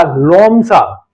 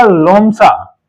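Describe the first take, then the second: First: लोमसा stretched out slowly and low; slow, low लोमसा like a teacher; drawn-out answer. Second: Said in the usual way. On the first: Shown as a demonstration. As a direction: spell out लोमसा slowly for the class. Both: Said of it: "लोमड़ी का क्या हो जाएगा?".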